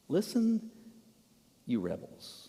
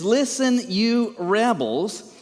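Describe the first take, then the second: First: Hushed, mild address with long pauses; mock gentle. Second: Raised, drawn-out angry rebuke; slow, furious scolding; livid. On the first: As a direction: say it far too softly for a rebuke. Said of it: "in terms of tone, what do you think". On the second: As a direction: harangue them, louder and higher. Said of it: "he is livid". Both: Shown as a demonstration.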